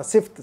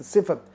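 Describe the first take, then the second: First: Sift squeezed into one syllable; mispronunciation. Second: Si-fat with an A before the T; correct pronunciation. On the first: Teacher repeats what many people say, one-syllable सिफ्त. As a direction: drop the vowel between F and T in सिफ्त. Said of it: "बहुत सारे लोगों को सुना सिफ्त". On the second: Teacher sets people right, two-syllable सिफत. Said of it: "सिफ्त नहीं, सिफत". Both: Shown as a demonstration.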